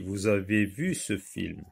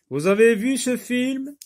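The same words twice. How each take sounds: First: The voice does not rise at the end. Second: The voice rises at the end. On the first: It is a statement. "C'est une phrase déclarative" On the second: It is a question. "la voix, elle va monter"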